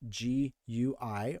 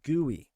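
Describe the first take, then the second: First: It is spelled out as three separate letters. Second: It is said as one word, like gooey.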